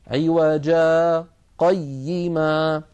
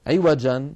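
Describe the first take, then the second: First: عوجا held on its long alif, brief breathless halt, then قيما slowly; a light catch after عوجا with no breath, then قيما; slow recitation with a tiny pause before قيما; sakt on عوجا. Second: عوجا stopped with a long final alif, slowly; full stop on عوجا. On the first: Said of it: "والسكت على عوجا هو". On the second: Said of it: "فالوقف على عوجا هو". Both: Shown as a demonstration.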